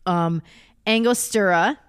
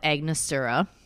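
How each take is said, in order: First: The word is pronounced as Angostura. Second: The word is pronounced as Agnostura. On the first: The speaker calls it right. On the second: The speaker calls it wrong.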